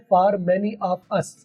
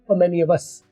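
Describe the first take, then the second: First: Each word is said separately, without linking. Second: Vowel-initial words are joined to the previous word. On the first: The speaker calls it wrong. "जो गलत version है" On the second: The speaker calls it right. "सही क्या है?"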